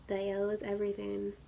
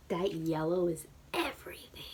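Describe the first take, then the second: First: Said in the usual way. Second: That yellow is everything whispered, hushed and breathy; whispered "That yellow is everything" in awe; awed whisper. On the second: Real, not acted. Awed first take of line.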